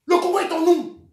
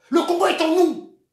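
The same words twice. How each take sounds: The two takes are said the same way.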